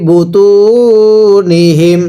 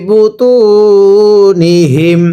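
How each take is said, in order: No difference in how they are said.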